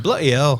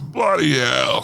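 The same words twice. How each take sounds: First: Put-on British accent. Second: Slow, drawn-out British "Bloody hell"; British accent. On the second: Retold or imitated. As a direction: drag out "Bloody hell" like a Brit. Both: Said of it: "started out their comment with".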